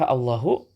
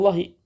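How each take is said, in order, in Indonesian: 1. Kata itu berakhir dengan vokal u pendek. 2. Kata itu berakhir dengan vokal i pendek. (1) "dengan dhammah"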